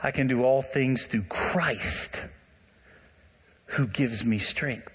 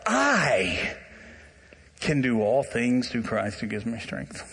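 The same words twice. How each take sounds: First: "I" left light, with the weight on "all" and "Christ", said slowly; slow down and let "all" and "Christ" carry the verse; stress on all and Christ. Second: "I" stressed and drawn out, then a pause before the rest. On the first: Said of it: "here's how you should say the verse". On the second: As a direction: lean hard on "I" and hold it before "can". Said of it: "The emphasis is on "I". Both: Shown as a demonstration.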